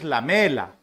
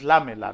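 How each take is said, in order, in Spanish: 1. El acento está en la segunda sílaba. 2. El acento está en la primera sílaba. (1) "Es lamela" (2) "No está tildado, no es lámela"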